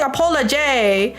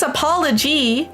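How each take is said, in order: First: "apology" with a -jay ending; mispronounced apology. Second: "apology" with a -jee ending; corrected apology. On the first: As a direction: echo the slip, rhyming the end of "apology" with "day". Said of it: "why am I saying apology". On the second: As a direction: say "apology" with its last syllable as "jee". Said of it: "It's apology". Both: Shown as a demonstration.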